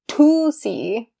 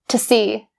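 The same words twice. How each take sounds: First: The word 'to' has a full 'oo' vowel. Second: The word 'to' is reduced to 'ta'. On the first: The speaker calls it wrong. "We don't say to see" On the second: The speaker calls it right. "We change to to ta"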